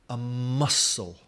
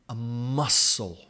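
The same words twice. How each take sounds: The two takes are said the same way.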